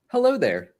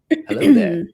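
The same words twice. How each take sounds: First: It is read in a plain everyday voice. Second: It is said in an imitated character voice. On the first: The speaker calls it wrong. "I should not read it like that" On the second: The speaker calls it right. "We we should all do our best Kenobi impressions"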